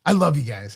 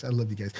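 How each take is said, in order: First: Said in the usual way. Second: Soft aside. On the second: Acted. Repeats softer, lower.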